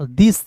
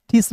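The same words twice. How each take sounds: First: दिस begun with a voiced द sound; correct pronunciation. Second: ठिस begun with a hard aspirated ठ; mispronunciation. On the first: Teacher showing learners how TH reads, correct pronunciation. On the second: Teacher warning learners off a misreading, mispronunciation. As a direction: say ठिस with a puffed th-stop instead of d. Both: Shown as a demonstration. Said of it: "ठिस नहीं पढ़ेंगे".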